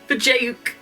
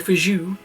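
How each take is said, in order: First: Every sound, including J and final K, is pronounced. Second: The final K sound is left silent.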